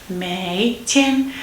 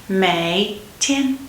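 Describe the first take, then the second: Both takes have the same delivery.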